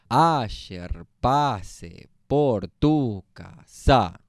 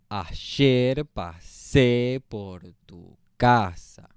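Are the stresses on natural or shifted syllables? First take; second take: shifted; natural. First: The stresses fall on unusual syllables. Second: The stresses fall on the usual syllables.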